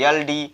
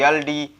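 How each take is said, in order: Both takes have the same delivery.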